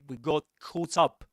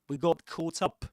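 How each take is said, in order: First: It is said in a British English accent. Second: The same.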